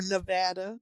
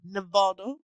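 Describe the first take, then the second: First: "Nevada" with the A of cat; pronunciation variant. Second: "Nevada" with an AH, nuh-VAH-duh; pronunciation variant. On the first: Offering the other version to friends, "Nevada" as nuh-VAD-uh. Gives both pronunciations of the state. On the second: Offering both versions to friends, "Nevada" as nuh-VAH-duh. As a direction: open the middle of "Nevada" to AH as in father. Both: Shown as a demonstration.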